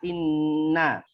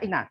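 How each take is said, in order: First: The n sound is doubled and held. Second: The n sound is short, not held. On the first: The doubling mark is read as written. The speaker calls it right. "nggak dibaca inna" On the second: A machine reads it without the doubling mark. The speaker calls it wrong. "kalau di teknologi pasti juga cuma dibaca ina"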